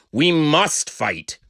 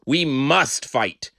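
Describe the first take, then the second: No difference in how they are said.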